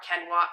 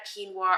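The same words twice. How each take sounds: First: Quinoa said as KEN-wah; two-syllable quinoa, first syllable like "ken"; alternative pronunciation. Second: Quinoa said as KEEN-wah; two-syllable quinoa, first syllable like "keen"; alternative pronunciation. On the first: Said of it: "I don't know how you say it". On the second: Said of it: "Everybody honestly says that differently". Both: Shown as a demonstration.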